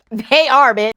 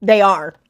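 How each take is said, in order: First: Insistent "They are", pushed up and out; emphatic repeat. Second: Said in the usual way. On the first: Real, not acted. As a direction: hit ARE hard in "They are". Repeats the answer more emphatically.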